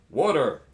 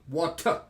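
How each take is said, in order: First: It is said in an American accent. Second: It is said in a British accent. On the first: "Americans say, some of them, water. It's not a T, it's a D" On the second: "The British people say water"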